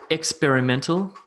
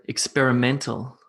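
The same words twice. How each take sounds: First: EX-perimental, rising; mis-stress "experimental" on EX; "experimental" with the weight on its opening syllable; first-syllable stress. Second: Ex-peri-MEN-tal, weak first syllable; "experimental" with the fourth syllable strongest; stress on MEN. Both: Shown as a demonstration. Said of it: "Where should I put emphasis".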